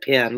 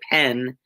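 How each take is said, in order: First: The word is said in a standard accent. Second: The word is said in a Southern accent. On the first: "instead of pen" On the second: "I do still say pen"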